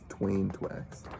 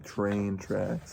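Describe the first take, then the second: First: The R sounds are replaced by W sounds. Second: The words are said with a clear R sound. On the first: The speaker calls it wrong. "he says twain twacks" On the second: The speaker calls it right. "he can't say train tracks"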